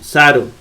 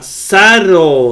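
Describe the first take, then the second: First: The middle consonant is short and single. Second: The middle consonant is held long. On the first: The speaker calls it right. "Así es sencillo" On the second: The speaker calls it wrong.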